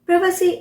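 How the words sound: It is said with a British English accent. "is a British pronunciation of the word"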